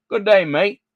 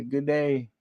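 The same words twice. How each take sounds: First: A light mock Australian good day, higher and louder; cheeky Australian hello; Australian accent on good day; Aussie greeting. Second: Said in the usual way. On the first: Shown as a demonstration.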